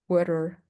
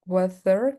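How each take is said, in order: First: "weather" dengan R tap di tengah; tapped R. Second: "weather" dengan TH lembut berdesis; tongue between teeth for "weather"; TH sound. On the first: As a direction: flap the middle of "weather". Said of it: "weather con R". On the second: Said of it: "weather con T H". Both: Shown as a demonstration.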